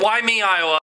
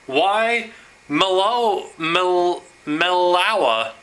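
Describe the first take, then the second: First: The name is said like 'why me, Iowa'. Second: The name is said like 'why melo, melawa'. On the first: The speaker calls it right. "I think that it's Why Me, Iowa" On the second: The speaker calls it wrong. "I had been mispronouncing this name"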